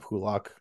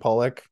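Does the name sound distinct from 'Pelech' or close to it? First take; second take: distinct; close. First: The name sounds clearly distinct from 'Pelech'. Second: The name sounds very close to 'Pelech'. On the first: The speaker calls it right. "or Pulock" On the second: The speaker calls it wrong. "I almost said it a little too similarly"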